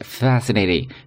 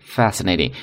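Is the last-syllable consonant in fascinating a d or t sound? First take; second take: d sound; d sound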